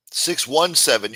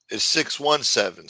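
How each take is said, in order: First: Slow, stressed six ONE seven with the "one" punched; slow down and hit "one" in "Six one seven" to correct the digits; correcting the number. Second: Said in the usual way. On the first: Shown as a demonstration. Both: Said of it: "You put a two in there".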